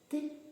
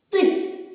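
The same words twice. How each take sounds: First: The syllable is said quietly. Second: The syllable is said loudly. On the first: "А тепер тихіше" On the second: "постаратися промовити звук «ти» голосно"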